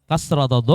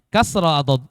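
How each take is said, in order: Both takes have the same delivery.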